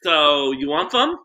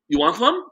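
First: "some" lisped as "thum", slow and higher. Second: "some" lisped as "thum", high and mocking. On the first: Retold or imitated. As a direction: say "some" with a lisp, "s" as "th". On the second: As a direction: lisp "some" so it comes out "thum". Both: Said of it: "And she had a lisp".

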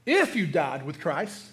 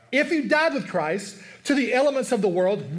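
First: If lifted and held, said slowly; slow down and lean on If; stress on If. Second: Said in the usual way. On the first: Shown as a demonstration. Preacher drawing out If for the congregation. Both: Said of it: "that word "if" is the biggest word".

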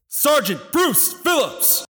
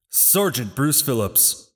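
First: Stiff barking toy soldier. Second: Said in the usual way. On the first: Acted. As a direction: shout the full name across the field. Roll call, no answer.

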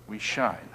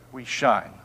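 First: Much softer and lower We shine. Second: Said in the usual way. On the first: Shown as a demonstration. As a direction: hush it, We shine almost breathed.

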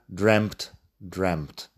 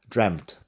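First: Dreamt with a short E and a final T; short vowel form. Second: Dreamt with a short E and a clear final T; pronouncing the final T. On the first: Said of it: "Cambia también el sonido de la vocal en dreamt". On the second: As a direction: make the T at the end of dreamt heard. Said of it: "con T al final". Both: Shown as a demonstration.

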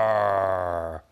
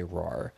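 First: Loud, full-throated lion roar; magic lion roars at the boys, loud. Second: Said in the usual way. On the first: Acted. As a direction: roar like a big friendly lion. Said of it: "he started to say". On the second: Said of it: "regular lions could also say".

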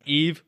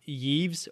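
First: Yves said as "eev", no Y sound, silent S; correct French Yves. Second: Yves said as "yeevz", with Y and final Z; mispronounced Yves. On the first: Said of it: "It's pronounced Yves". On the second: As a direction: say Yves wrongly as one syllable, "yeevz". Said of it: "is not pronounced". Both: Shown as a demonstration.

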